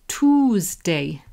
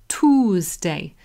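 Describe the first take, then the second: Both takes have the same delivery.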